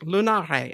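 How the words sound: It is said the Italian way, with a final vowel. The speaker calls it right. "oh yeah, Italian"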